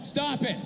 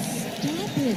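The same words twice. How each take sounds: First: It is read out flatly, like a court reading. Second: It is said in a playful, teasing way.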